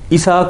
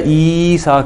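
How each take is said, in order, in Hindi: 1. दीर्घ स्वर को छोटा करके बोला जाता है। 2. दीर्घ स्वर को खींचकर बोला जाता है। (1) "ईसा कोई भी नहीं कहता" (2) "थोड़ा सा उसको खींचते हैं"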